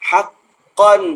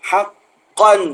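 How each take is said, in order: The two takes are said the same way.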